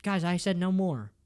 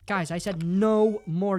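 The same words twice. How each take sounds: First: Said in the usual way. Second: "no" drawn out long in mock insistence; slow the line, stretching "no"; stress on "no". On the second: Streamer begging chat for no sad stories, "no" stretched emphatically.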